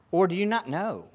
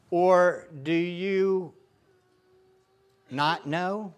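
First: Said in the usual way. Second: Slow reading. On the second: Acted. Reading scripture slowly.

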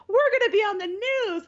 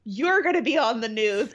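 First: High, thrilled announcement; imitating a delighted grandfather; excited. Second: Mock deadpan grandmother. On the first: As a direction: beam about getting on TV. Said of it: "He's, like, super excited". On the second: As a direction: say it with a dead stare, unimpressed. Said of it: "looks at him, like, dead ass and goes".

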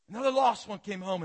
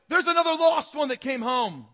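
First: Raised voice settling down from a shout; easing-off exclamation. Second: High, very loud triumphant announcement; God's jubilant shout. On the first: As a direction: repeat it loudly but less intensely, falling away. Repeats God's announcement, coming down. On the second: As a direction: shout the good news to all heaven. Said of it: "You can see God going". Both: Acted.

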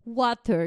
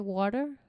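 First: "Water" louder, with a falling end; English-style water. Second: "Water?" at usual level with a rising question end; puzzled echo. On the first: Shown as a demonstration. Echoing a friend's example of English from England, firm falling "Water". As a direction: say "Water" firmly and let it drop. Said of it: "The England". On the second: Retold or imitated. Retelling own reaction to an unfamiliar pronunciation, puzzled rising "Water?". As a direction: ask "Water?" as if not understanding. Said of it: "And I'm like".

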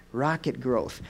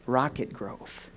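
Both takes have the same delivery.

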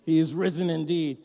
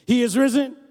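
First: Said in the usual way. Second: Risen hit loud and high; stress on risen. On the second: Shown as a demonstration. Pastor giving the call, loud with risen stressed. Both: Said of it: "your emphasis on the old".

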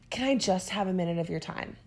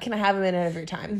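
First: Timid, hedging ask. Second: Quick, firm, confident request; direct ask. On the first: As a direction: shrink yourself as you ask. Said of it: "talking about kneecapping sentences". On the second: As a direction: ask straight out, no hedging. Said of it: "Just ask the question and do it". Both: Retold or imitated.

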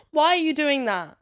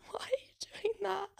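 First: Higher and louder, demanding; exasperated shout. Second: High, breathless whisper through a laugh. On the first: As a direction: throw the question at them loudly. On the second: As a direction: whisper it in disbelief. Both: Acted. Baffled by adults on scooters.

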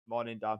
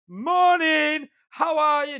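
First: Low, soft, deflated imitation; crestfallen greeting. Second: High, loud, over-cheerful imitation; dead bubbly greeting. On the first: Told-off customer now greeting the driver timidly, crestfallen. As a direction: say hello small and subdued, energy gone. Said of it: "then his face, like, drops". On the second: Regular customer greeting a tired driver at the hatch, dead bubbly. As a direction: belt out a chirpy hello, pitched right up. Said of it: "Dead bubbly".

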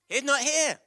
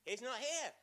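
First: Loud, high proclamation. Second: Quiet first try; soft. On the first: Leader proclaiming the Easter line to the congregation, loudly. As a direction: announce it to the whole room. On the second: Leader tries the Easter line softly first. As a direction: say it softly, holding back. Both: Shown as a demonstration.

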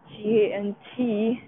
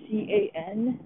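First: Spelling out C A N T letter by letter; spelled out. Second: Spelling out C A N letter by letter; spelled out. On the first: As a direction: spell each letter of can't. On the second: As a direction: spell each letter of can. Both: Shown as a demonstration.

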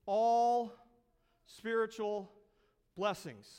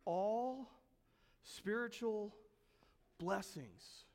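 First: All punched hard and loud, then spiritual blessings falling; stress on all. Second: All spiritual blessings said softly, sinking to near silence; hushed repeat. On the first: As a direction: hit the word all like a hammer. Preacher emphasises key phrase. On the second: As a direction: let the phrase sink in, almost breathed. Preacher repeats phrase hushed. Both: Shown as a demonstration.

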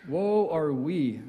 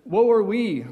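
First: "Woe are we" drawn out very slowly, stretching "Woe". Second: Louder, mock-dramatic "Woe are we" with a falling wail on "are"; woe lament. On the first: Retold or imitated. Preacher mimicking the complaint, slow and mournful. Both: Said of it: "here's one that I think I hear".

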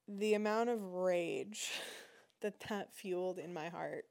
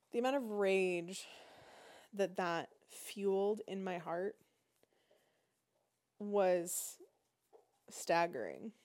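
First: A small laugh breaking the words; laughing through it. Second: Said in the usual way. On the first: Real, not acted. Telling viewers about her rage, laughing through words. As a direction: laugh at her own rising anger. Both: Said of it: "I'm getting worked up".

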